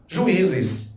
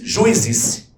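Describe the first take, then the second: First: Juízes as ju-Í-zes, stressed I on its own; syllables separated. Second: Juízes run together, UI as one syllable; mispronounced in one go. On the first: Teacher showing the correct word, juízes with separated syllables. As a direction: split the U from the I in juízes. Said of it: "Você diz separando as sílabas". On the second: Teacher showing what nobody says, juízes without separated syllables. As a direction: say juízes wrongly as JUI-zes, no hiatus. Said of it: "Ninguém diz juízes". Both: Shown as a demonstration.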